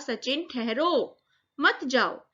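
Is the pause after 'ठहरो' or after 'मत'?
after ठहरो. The pause comes after 'ठहरो'.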